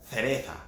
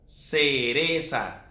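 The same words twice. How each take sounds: First: It has a Spanish th sound. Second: It has a Latin American s sound.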